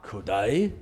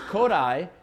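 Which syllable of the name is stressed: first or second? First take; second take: second; first. First: The stress is on the second syllable. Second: The stress is on the first syllable. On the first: The speaker calls it wrong. "It's not Kodai. It's not Japanese" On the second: The speaker calls it right. "Stress on the first syllable"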